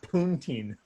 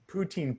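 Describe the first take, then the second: First: An n sound comes before the t. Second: No n sound comes before the t. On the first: The speaker calls it wrong. "not poontine" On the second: The speaker calls it right. "It's poutine"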